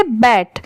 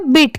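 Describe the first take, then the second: First: "बैट" with an open ai vowel; standalone BET sound. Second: "बिट" with a short i vowel; BIT sound. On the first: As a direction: say "बैट" as a separate word, open vowel before t. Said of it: "वहां पर उसकी sound क्या आती". ("बैट" में खुली ऐ की आवाज़) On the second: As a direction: say "बिट" with a short i before t, as in between. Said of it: "यहाँ पर इसकी साउंड क्या आ रही है". ("बिट" में छोटी इ की आवाज़) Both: Shown as a demonstration.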